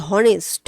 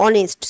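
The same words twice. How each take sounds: First: "হনেস্ট" with the H pronounced at the start; "হনেস্ট" opening on an audible h sound. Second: "অনেস্ট" starting straight on the O vowel; "অনেস্ট" with no h sound at the start; silent H. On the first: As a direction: mispronounce "হনেস্ট" by voicing its silent H. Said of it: "আমি তো উচ্চারণ করছি না যে". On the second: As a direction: drop the H, open "অনেস্ট" on a vowel. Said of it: "আমি কি উচ্চারণ করছি?". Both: Shown as a demonstration.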